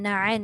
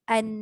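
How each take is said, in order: First: The opening vowel is pressed hard in the throat. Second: The opening vowel starts softly without throat pressure. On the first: The speaker calls it wrong. "Na'an tu kan ditekan" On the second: The speaker calls it right. "Hamzah tu dekat bawah tu dia tak tekan"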